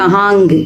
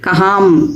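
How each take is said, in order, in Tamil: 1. வார்த்தை கூடுதலான ngu ஒலியில் முடிகிறது. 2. வார்த்தை m என்ற மூடும் ஒலியில் முடிகிறது. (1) "அப்படியெல்லாம் நம்ம சொல்லிட்டு இருக்கிறோம்" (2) "அப்படியெல்லாம் நம்ம சொல்லிட்டு இருக்கிறோம்"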